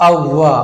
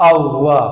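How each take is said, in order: No difference in how they are said.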